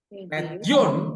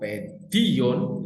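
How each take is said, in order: First: The stress falls on the final 'on' syllable. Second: The stress falls on the middle 'di' syllable. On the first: It means children. "kalau penekanannya di o omikron" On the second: It means education. "kalau penekanannya di iota"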